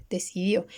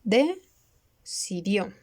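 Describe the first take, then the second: First: Said in the usual way. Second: "decidió" drawn out slowly, split across the line break as "deci-dió"; slow split word. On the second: Shown as a demonstration. ("decidió" muy lento, separado por sílabas) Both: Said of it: "Acá está".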